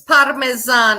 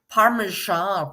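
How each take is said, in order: First: The middle consonant is a plain s sound. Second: The middle consonant is a sh sound. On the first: The speaker calls it right. "It's Parmesan" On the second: The speaker calls it wrong. "It's not Parmesan"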